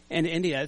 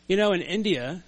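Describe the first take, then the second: First: Said in the usual way. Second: "in India" in a light Indian accent. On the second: Shown as a demonstration. Preacher telling a story about India, light Indian accent. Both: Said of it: "I just said it with an Indian accent".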